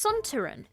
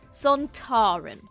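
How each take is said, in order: First: The stress does not fall on the middle syllable. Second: The stress falls on the middle syllable.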